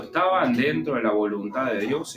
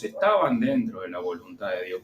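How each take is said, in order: First: Said in the usual way. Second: "estaban dentro de la voluntad de Dios" repeated lower, settling the point; lower emphatic repeat. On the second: Shown as a demonstration. Preacher repeating to his congregation, lower and firmer.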